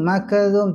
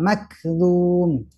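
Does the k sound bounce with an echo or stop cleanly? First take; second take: stops cleanly; bounces. First: The k sound stops cleanly without bouncing. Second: The k sound bounces with a small echo. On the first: The speaker calls it right. "Jangan sampai kafnya jadi mantul" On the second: The speaker calls it wrong. "tidak makzum"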